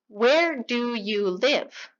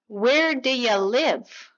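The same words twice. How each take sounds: First: Each word is said clearly and separately. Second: The words are reduced and blended together quickly. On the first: "Clean, unreduced" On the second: "普通のネイティブがこのように"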